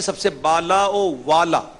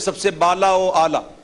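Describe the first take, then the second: First: A 'w' sound links into 'aala'. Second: A plain vowel runs straight into 'aala'. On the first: The speaker calls it right. "ये बाला ओ आला नहीं है" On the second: The speaker calls it wrong. "लोग उसको पढ़ते हैं"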